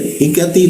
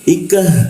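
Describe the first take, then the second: First: The word ends with a clear ti syllable. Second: The word ends with a breathy h sound. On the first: The reading continues past this word. "h kalau dibaca jadinya ti ya" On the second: The reading stops at this word. "kalau kita berhenti di sini jadi h dia"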